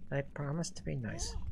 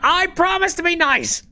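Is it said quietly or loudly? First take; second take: quietly; loudly. First: It is said quietly and reluctantly. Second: It is said loudly.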